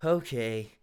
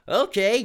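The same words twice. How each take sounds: First: "Okay" said low and flat, dejected; reluctant downcast okay; depressed. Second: Bright, loud, upbeat okay; "Okay" sung out happily and loud; eager agreement; cheerful okay. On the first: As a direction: let "Okay" sink, defeated. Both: Shown as a demonstration. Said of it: "Dylan's depressed here".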